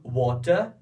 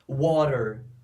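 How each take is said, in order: First: The t is a crisp, strong t. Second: The t sounds like a quick r. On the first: "Para os britânicos, eles vão pronunciar a letra T como ela é" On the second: "Os americanos pronunciam a letra T com som de R"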